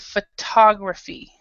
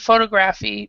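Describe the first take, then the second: First: The stress is on a later syllable. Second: The stress is on the first syllable. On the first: The speaker calls it right. "we say photography. So the stress is in a different area" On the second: The speaker calls it wrong. "you would think that the next word would follow the same pronunciation, but it doesn't. So instead of photography"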